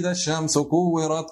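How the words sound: It is recited in a cheerful, festive tone. The reciter ignores the solemn meaning. The speaker calls it wrong. "как будто бы ты о чем-то, субхана, празднике каком-то читаешь"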